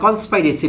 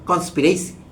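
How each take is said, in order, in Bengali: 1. দ্বিতীয় সিলেবলে 'eye' স্বরধ্বনি আছে। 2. দ্বিতীয় সিলেবলে একটি ছোট 'ih' স্বরধ্বনি আছে। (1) "প্রচলিত এবং ভুল উচ্চারণে" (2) "ডিকশনারি সিদ্ধ উচ্চারণটি"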